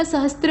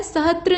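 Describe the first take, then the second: First: सहस्त्र with s before tra; correct form. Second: सहस्त्र without its s before tra; wrong form. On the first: Teacher correcting it, सहस्त्र with a clear "stra". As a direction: say सहस्त्र as "sahastra". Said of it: "सहस्त्र होता है". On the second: Teacher showing the mistake, सहस्त्र as "sahatra". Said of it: "नहीं होता". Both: Shown as a demonstration.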